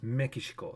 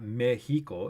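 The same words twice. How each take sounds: First: Mexico as "meh-kee-shee-ko"; Japanese pronunciation. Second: Mexico as "MEH-hee-ko", drawn out; Spanish-style pronunciation. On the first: Streamer correcting to the Japanese reading, Mexico as "me-ki-shi-ko". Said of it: "it's Mexico". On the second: Streamer giving the reading Japanese doesn't use, Mexico as "meh-hee-ko". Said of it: "not Mexico". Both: Shown as a demonstration.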